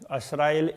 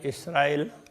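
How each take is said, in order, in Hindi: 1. यह शब्द 'a' स्वर से शुरू होता है। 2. यह शब्द 'i' स्वर से शुरू होता है। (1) "कोई असराइल कहते हैं" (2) "कोई इसराइल कहते हैं"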